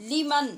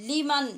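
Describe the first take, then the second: No difference in how they are said.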